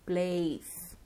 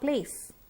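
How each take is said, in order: First: The vowel is long and glides. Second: The vowel is short without a glide. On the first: The speaker calls it right. "you have to stretch the sound" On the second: The speaker calls it wrong. "Not place"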